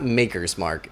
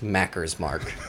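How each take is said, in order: First: The first vowel sounds like 'make'. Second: The first vowel sounds like 'mack'. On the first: The speaker calls it right. "it's not Maker's Mark" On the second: The speaker calls it wrong. "It's pronounced Macker's Mark"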